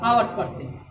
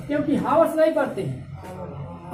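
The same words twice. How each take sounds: First: आवर्स with a silent h, starting on the vowel; right pronunciation. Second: हावर्स with a sounded h; हावर्स बोलो, h साफ़ सुनाई दे; wrong pronunciation. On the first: (आवर्स, बिना ह की आवाज़ के) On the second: (हावर्स, ह के साथ गलत उच्चारण) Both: Shown as a demonstration. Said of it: "इसका सही उच्चारण है आर्स".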